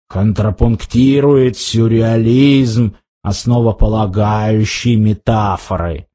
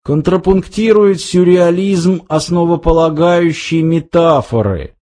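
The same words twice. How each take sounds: First: Low, slow, ponderous recital; grim Vogon captain. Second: Eager improvised literary patter; Ford coming to life. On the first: Captain alone mocking the praise of his poems, grimly slow. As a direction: savour each word slowly, pitched low. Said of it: "мрачно улыбнувшись". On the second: Ford rescuing Arthur's stalled praise, lively and quick. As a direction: jump in briskly and keep it moving. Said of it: "и тут ожил Форд". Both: A narrator's reading.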